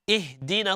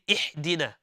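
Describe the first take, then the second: First: The h sound is moderate, from the throat. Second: The h sound is over-emphasized and forced. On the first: The speaker calls it right. "like we say" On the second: The speaker calls it wrong. "We don't say ihdina"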